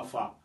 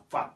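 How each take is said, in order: First: "fa" as an open "fah" with no t; final consonant dropped. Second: "fat" as "faht" with the t sounded at the end; final consonant pronounced. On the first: Teacher showing what not to say, dropped final letter. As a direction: leave the t off, just "fa". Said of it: "On ne dit pas fa". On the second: Teacher showing the English ending, final t pronounced. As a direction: finish "fat" on an audible t. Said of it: "on prononce toujours la dernière lettre". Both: Shown as a demonstration.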